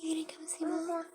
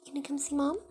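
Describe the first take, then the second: First: High, breathless whisper. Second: Sweet coaxing. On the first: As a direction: whisper it sweetly to a pet. Whispered repeat to bird. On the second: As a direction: coax the bird sweetly. Coaxing the bird. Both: Real, not acted.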